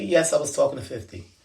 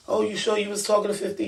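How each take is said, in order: First: Said in the usual way. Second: Higher, fast mock disbelief; doubting question. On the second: Echoing the doubters who questioned the fifty claim, fast, high disbelief. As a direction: toss it off like the doubters did. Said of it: "And everybody say to me".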